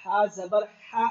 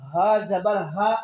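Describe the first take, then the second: First: Slow spelling drill, "हा" rubbed in mid-throat; throaty ha. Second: Slow spelling drill, "हा" as an open h from low down; deep chest h. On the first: Teacher drills students on the letter, throaty ha. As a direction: say each "हा" with tight throat friction, slowly. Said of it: "यहाँ से आवाज आएगी". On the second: Teacher contrasts the second letter for students, deep chest h. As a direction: say each "हा" slowly with a plain open breath, no throat friction. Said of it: "फर्क वाज़ेह रखना". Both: Shown as a demonstration.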